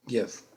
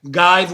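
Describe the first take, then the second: First: The vowel is a short 'ih' sound. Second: The vowel is a long 'eye' sound. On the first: The speaker calls it right. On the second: The speaker calls it wrong. "we know doesn't exist"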